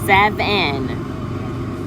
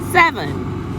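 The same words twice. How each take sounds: First: The second syllable has a full 'e' vowel. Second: The second syllable has a reduced schwa vowel. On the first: The speaker calls it wrong. "that is not the correct way that you pronounce the word" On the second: The speaker calls it right. "let's try the schwa"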